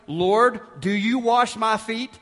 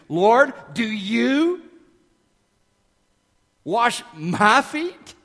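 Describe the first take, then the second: First: The pronouns get no special emphasis. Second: The pronouns 'you' and 'my' are strongly emphasized. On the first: It sounds like a dull, obvious question. The speaker calls it wrong. "That may sound like the understatement of the year, as if Peter is just being dense" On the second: It is shocking that this person washes these feet. The speaker calls it right. "pour great intentional emphasis into Peter's use of pronouns and read it like this"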